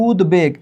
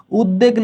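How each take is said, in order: First: উদ্বেগ said "ud-beg", b kept; sounded b. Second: First উদ্বেগ said "ud-deg", no b; doubled d. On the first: Teacher showing the correct word, b sounded in উদ্বেগ. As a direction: pronounce d and then b clearly in উদ্বেগ. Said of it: "হয়েছে". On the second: Teacher showing the rejected reading, doubled d in উদ্বেগ. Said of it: "না হয়ে". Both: Shown as a demonstration.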